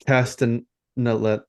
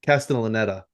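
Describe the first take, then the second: First: "Castanella" sounded out slowly, dropping the last syllable; halting, unsure go at "Castanella"; stumbling pronunciation. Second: "Castellaneta" said in full, through to the final "-eta"; corrected pronunciation. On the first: Host struggling with an actor's hard surname, stumbling pronunciation. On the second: Host finally getting through an actor's hard surname, corrected pronunciation. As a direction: get all of "Castellaneta" out in one go. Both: Real, not acted. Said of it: "that name is brutal".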